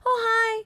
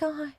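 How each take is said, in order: First: The greeting sounds cheerful and friendly. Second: The greeting sounds tired and unenthusiastic.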